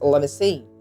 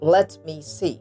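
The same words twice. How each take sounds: First: 'Let me' blends into one reduced form. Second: 'Let me' is said fully and separately.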